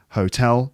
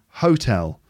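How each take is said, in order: First: The stress is on the second syllable. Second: The stress is on the first syllable. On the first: The speaker calls it right. "because it should be hotel" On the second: The speaker calls it wrong. "not hotel"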